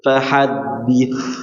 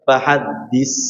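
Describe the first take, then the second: First: The final consonant is a soft th sound. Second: The final consonant is a plain hissing s. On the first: The speaker calls it right. "suaranya berbeda ya sama huruf sa" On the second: The speaker calls it wrong. "enggak dibaca fahaddis"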